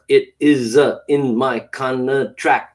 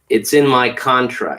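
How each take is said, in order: First: It is broken up with hesitations and pauses. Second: It is said in one smooth flowing phrase. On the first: The speaker calls it wrong. "bounce all over the place" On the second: The speaker calls it right. "it'll flow much better"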